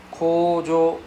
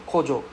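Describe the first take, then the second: First: Kojo with drawn-out O vowels; long O sounds. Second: Kojo with short, quick vowels; short O sounds. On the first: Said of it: "Got difference". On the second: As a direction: say kojo without dragging the O. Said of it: "don't have the long sound". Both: Shown as a demonstration.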